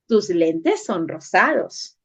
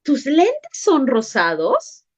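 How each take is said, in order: First: TUS LENTES SON ROSADOS as a slow, low statement, no question; statement intonation. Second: TUS LENTES SON ROSADOS slowly, rising into a question; question intonation. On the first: Teacher showing sentence A to pupils, stated slowly. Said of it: "Oración A". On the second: Teacher showing sentence B to pupils, asked slowly. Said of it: "Oración B". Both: Shown as a demonstration.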